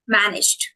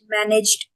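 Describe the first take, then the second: First: The -ed ending blends in smoothly and lightly. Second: The -ed ending is said with heavy effort. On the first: The speaker calls it right. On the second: The speaker calls it wrong.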